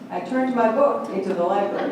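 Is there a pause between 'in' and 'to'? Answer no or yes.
no. 'Into' is said as one word without a pause. The book was transformed into a library.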